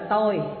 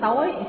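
First: The word is said on a level tone. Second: The word is said on a rising tone. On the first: It means I or me. "Chữ ngã đó được dịch ra là tôi" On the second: It means darkness. "thêm dấu sắc, nó thành chữ tối"

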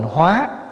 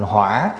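First: The syllable is said on a rising tone. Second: The syllable is said on a dipping tone. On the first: It means to transform. "nếu bỏ dấu sắc vô là thành hóa" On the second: It means fire. "lại đi để dấu hỏi vô, thành hỏa"

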